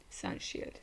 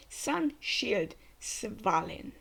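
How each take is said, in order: First: Sun Shield breathed out with no voice; whispered repeat. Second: Called attack name. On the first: Reacting to the anime, whispering the attack name back. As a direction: murmur Sun Shield to yourself. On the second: Reacting to the anime, calling the attack name. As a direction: announce the shield like an anime hero. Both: Acted.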